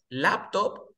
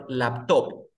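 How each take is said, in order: First: "laptop" with weight on the first syllable, LAP-top; slow LAP-top, first syllable strong; stress on LAP. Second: "laptop" with weight wrongly on the second syllable, lap-TOP; slow lap-TOP, second syllable strong; stress on TOP. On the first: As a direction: hit LAP in "laptop", drawn out slowly. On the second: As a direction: hit TOP in "laptop", drawn out slowly. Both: Shown as a demonstration. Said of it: "¿La sílaba tónica cuál es?".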